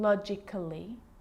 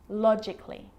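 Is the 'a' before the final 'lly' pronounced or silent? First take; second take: pronounced; silent. First: The 'a' before the ending is pronounced. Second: The 'a' before the ending is silent. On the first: The speaker calls it wrong. "So I'm not pronouncing" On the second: The speaker calls it right. "Cut the A out"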